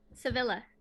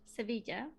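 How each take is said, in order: First: The name is pronounced with English sounds. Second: The name is pronounced with Spanish sounds. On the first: "but I never use that pronunciation" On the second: "or in Spanish"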